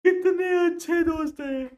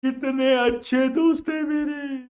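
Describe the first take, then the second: First: High, louder crying cry on कितने; mock crying wail. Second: High, slow, crying voice; mock sobbing. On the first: Punjabi crying out about his friends, hammed-up wail. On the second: Punjabi weeping over his kind friends, mock sob. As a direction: wail it slowly like a weeping man.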